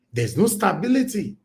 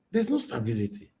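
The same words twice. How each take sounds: First: "no" pitched higher and leaned on; stress on no. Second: Softer, resigned echo; quiet repeat. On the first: Insisting to viewers, "no" stressed high. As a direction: hammer the word "no". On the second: Repeating it to viewers, quieter and resigned. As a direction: drop it down and let it sink. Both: Real, not acted.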